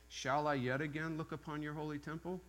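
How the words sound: It is said as a question.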